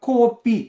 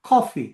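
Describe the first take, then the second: First: The first vowel is a long, high o sound. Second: The first vowel is a rounded, open aw sound. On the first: This is how Sri Lankan Tamils say it. "அதை நல்லா மேல கொண்டு போய் கோ என்று சொல்லுவோம்" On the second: This is the English pronunciation. "அது ஒரு வகையில் சாய்வான ஒரு ஆ"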